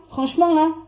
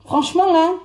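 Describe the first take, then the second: No difference in how they are said.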